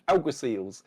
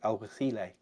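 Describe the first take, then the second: First: The word is said with an English pronunciation. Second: The word is said with a Spanish pronunciation. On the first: "as they are pronounced in England" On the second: "you listen to the, the Spanish guys, and it's something along the lines of"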